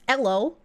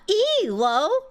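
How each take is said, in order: First: It is said as a single two-syllable word. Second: It is spelled out as three separate letters. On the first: It is treated as a person's name. The speaker calls it right. "Not an acronym, just a dude's name" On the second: It is treated as an acronym. The speaker calls it wrong. "It's not E L O"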